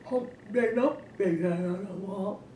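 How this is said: It is said in a Granny Bear voice.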